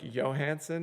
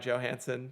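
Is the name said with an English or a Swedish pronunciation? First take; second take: Swedish; English. First: The name is said with a Swedish pronunciation. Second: The name is said with an English pronunciation. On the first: "if you want to get you know the Swedish pronunciation" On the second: "I just go by Johansson"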